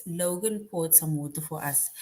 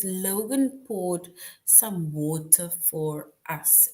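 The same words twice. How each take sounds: First: Said in the usual way. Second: Very slow, every word laid out; slow read-aloud. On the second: Shown as a demonstration. Teacher reading the sentence slowly to the class. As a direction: read it slowly so students can follow. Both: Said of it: "It says".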